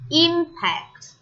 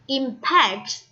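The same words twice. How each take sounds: First: The stress is on the first syllable. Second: The stress is on the second syllable. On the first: It is used as a noun. "when it's a noun, you would say impact with the stress on the first syllable" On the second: It is used as a verb. "Impact is a verb, and the second syllable is stressed"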